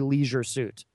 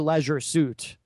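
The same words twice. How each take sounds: First: Leisure is said the more casual way. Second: Leisure is said the more sophisticated way. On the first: The speaker calls it right. "You have to say leisure suit" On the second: The speaker calls it wrong. "But you can't say leisure suit"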